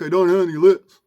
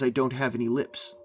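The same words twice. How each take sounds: First: It is voiced from the throat without clear articulation. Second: It is spoken normally with clear lip and tongue articulation. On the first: "one is spoken like a dog" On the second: "one is spoken like a human"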